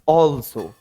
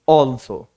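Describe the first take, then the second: The two takes are said the same way.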